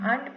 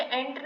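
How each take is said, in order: First: आंट with a long open aa sound, the correct way; right pronunciation. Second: एंट with a short flat e sound, the rejected way; wrong pronunciation. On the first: Teacher giving students the correct reading, आंट with long aa. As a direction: say आंट with a broad aa, as in aunt. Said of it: "आंट पढ़ रहे हैं". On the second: Teacher showing students the wrong way, एंट said plainly. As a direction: say एंट as the mistaken reading of ant. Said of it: "तो हम उसे एंट नहीं पढ़ रहे हैं". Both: Shown as a demonstration.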